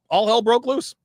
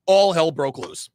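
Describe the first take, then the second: First: Higher and louder "All hell broke loose", "broke" rising; louder dramatic repeat. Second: Slow, weighty "All hell broke loose", each word laid down; slow emphasis. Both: Real, not acted. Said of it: "repeated for effect".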